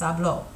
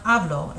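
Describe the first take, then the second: First: "habló" with stress on the last syllable, ha-BLO; final stress. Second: "hablo" with stress on the first syllable, HA-blo; wrong stress. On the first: Teacher showing the right stress, ha-BLO. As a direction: land on the end of "habló". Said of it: "it's habló". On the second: Teacher showing the wrong stress, HA-blo. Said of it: "It's not hablo". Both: Shown as a demonstration.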